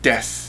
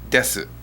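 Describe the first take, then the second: First: The final u sound is silent. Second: The final u sound is pronounced. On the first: This is the usual everyday way. "you're going to hear des" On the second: It is said this way for effect. "not desu"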